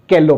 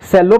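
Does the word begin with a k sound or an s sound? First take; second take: k sound; s sound. First: The word begins with a k sound. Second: The word begins with an s sound. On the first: "इसको क पढ़ेंगे" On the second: "इसको स पढ़ेंगे"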